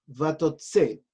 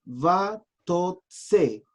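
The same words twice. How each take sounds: First: Said in the usual way. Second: "Vatotse" in three separated beats, va, tot, tse; syllable by syllable. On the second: Shown as a demonstration. Teacher reading out a Hebrew verb, "Vatotse" syllable by syllable. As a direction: sound out "Vatotse" slowly with gaps between syllables.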